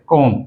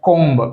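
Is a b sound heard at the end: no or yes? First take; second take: no; yes. First: No b sound is heard at the end. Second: A b sound is heard at the end. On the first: The speaker calls it right. "बी silent" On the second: The speaker calls it wrong. "कोम्ब नहीं कहना चाहिए"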